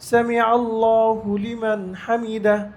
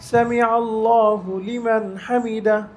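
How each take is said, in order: Both takes have the same delivery.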